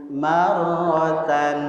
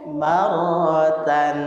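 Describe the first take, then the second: No difference in how they are said.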